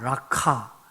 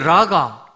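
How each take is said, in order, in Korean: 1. 가운데 자음은 거칠고, 목에서 억지로 밀어내는 소리입니다. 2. 가운데 자음은 부드럽고 평평합니다.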